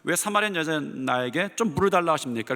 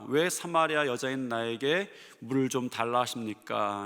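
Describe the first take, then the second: First: The question is asked in a blunt, sharp tone. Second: The question is asked in a mild, plain tone. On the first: The speaker calls it right. "이렇게 퉁명스럽게 말해야 돼요" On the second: The speaker calls it wrong. "사실은 이렇게 표현해서는 안 되죠"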